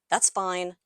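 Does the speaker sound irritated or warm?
irritated. It is said in an irritated, dismissive tone. "irritated and dismissive"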